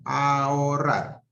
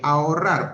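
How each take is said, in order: First: Ahorrar said slowly as a-ho-rrar, both vowels apart; split into syllables. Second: Said in the usual way. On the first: Shown as a demonstration. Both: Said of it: "La A es una vocal abierta".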